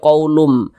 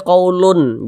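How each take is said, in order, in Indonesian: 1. Bunyi nasal di akhir melebur menjadi bunyi m. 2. Bunyi nasal di akhir adalah bunyi n. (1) "tapi dibaca qaulum. Dia masuk ke huruf mim" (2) "jangan dibaca qaulun"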